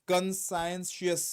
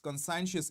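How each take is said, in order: First: "conscientious" slowly broken into con-scien-shus, louder; careful teacher's model of "conscientious", each part drawn out; pronunciation demo. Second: Said in the usual way. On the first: Shown as a demonstration. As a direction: sound out "conscientious" in slow parts, ending in "shus". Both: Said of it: "इसका pronunciation सुनो".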